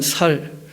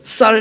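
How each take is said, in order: First: The first consonant is a plain s sound. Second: The first consonant is a tense s sound. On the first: The speaker calls it wrong. "경상도 사람들도 그런 게 좀 있죠" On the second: The speaker calls it right. "그 쌀 해봐 하면"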